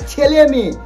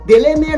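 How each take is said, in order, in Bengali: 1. প্রথম শব্দটি 'ch' ধ্বনি দিয়ে শুরু হয়। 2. প্রথম শব্দটি 'd' ধ্বনি দিয়ে শুরু হয়। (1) "বল ছেলে মেয়ে" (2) "দেলে মেয়ে নয়"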